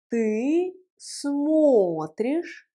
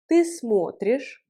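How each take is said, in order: First: Extremely slow, long held vowels; slow model pronunciation. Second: Said in the usual way. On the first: Shown as a demonstration. Teacher leading a repeat-after-me conjugation, very slow. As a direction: draw each word out for learners. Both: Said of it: "Prononçons ensemble la conjugaison".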